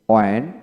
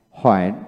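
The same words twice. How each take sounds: First: ওয়েন begun with a plain w, rising; British pronunciation. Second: হয়েন begun with a breathed h, falling; American pronunciation. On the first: Teacher modelling the British form for learners, British pronunciation. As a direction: say ওয়েন British-style, no h sound. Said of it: "British উচ্চারণ হলো ওয়েন". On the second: Teacher modelling the American form for learners, American pronunciation. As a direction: say হয়েন American-style, leading with h. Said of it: "আমেরিকানে হয়েন উচ্চারণ". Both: Shown as a demonstration.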